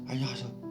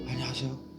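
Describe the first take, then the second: First: The voice sounds airy, with breath leaking out. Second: The voice sounds airy, with breath leaking out.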